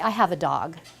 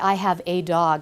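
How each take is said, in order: First: The word 'a' is reduced to a weak 'uh'. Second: The word 'a' is said as a full 'ay'. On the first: It sounds natural and conversational. The speaker calls it right. "I would say" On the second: It sounds read aloud rather than spoken. The speaker calls it wrong. "I wouldn't say"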